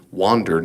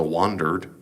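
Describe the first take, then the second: First: Said in the usual way. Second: Wandered drawn out in a Southern accent. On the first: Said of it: "not wonder with an O". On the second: Shown as a demonstration. Lecturer jokingly tries a lightly done Southern accent on wandered. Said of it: "trying to do that in a good Southern accent".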